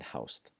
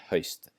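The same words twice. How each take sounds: First: The vowel is an ow sound. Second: The vowel is a rounded ö sound. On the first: The speaker calls it wrong. "the temptation to maybe say thou and haust" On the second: The speaker calls it right. "start saying þau and haust"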